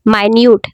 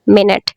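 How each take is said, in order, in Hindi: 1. यह my-NYOOT की तरह बोला जाता है। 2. यह MIN-it की तरह बोला जाता है। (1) "स्मॉल के लिए इस्तेमाल करेंगे इस लफ्ज़ को, तो बोलेंगे माइन्यूट" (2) "अगर हम इसे टाइम के लिए बोलेंगे"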